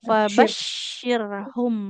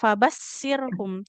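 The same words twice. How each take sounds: First: The shin sound is a clear sh. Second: The shin sound is not a clear sh. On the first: The speaker calls it right. "Fabashshirhum ya huruf shin" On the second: The speaker calls it wrong. "tidak Fabashshirhum"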